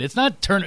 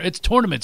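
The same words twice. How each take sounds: First: 'turn-' said with an 'er' vowel; rejected pronunciation. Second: 'tournament' opening with 'tor'; insisted pronunciation. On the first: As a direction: show 'turn-' rhyming with burn. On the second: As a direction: say 'tournament' as TOR-nament. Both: Shown as a demonstration.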